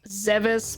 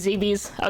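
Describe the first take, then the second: First: The second syllable sounds like 'bis'. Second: The name rhymes with 'BBs'. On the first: This is the official way to say it. "Official pronunciation" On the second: This is the speaker's personal way to say it. "I say it rhyming with B Bs"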